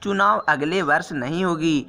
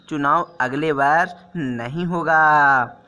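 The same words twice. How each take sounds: First: Said in the usual way. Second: Slow corrected version. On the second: Shown as a demonstration. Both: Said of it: "बोलने का देखिए तरीका".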